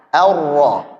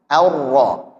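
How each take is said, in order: Both takes have the same delivery.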